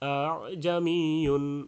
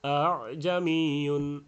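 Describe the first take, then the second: The two takes are said the same way.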